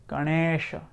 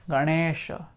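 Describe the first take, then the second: Both takes have the same delivery.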